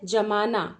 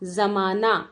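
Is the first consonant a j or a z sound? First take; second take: j; z. First: It begins with a j sound. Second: It begins with a z sound. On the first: To set or freeze something. "दही जमाने की बात" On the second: An era or age. "ज के नीचे बिंदु लगाते हैं"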